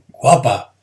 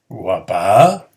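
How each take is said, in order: First: It is said as an exclaimed compliment. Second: It is said with doubtful, questioning surprise.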